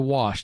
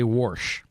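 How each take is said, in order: First: It is said without an R sound. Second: It is said with an added R sound.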